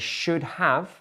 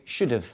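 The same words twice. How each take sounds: First: Both words are said fully and separately. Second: The words are squeezed together into one reduced form.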